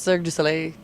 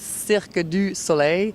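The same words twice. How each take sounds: First: It is said very fast. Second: It is said at a normal pace. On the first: "when you hear it very fast" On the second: "but it's"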